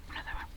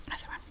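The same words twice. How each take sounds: The two takes are said the same way.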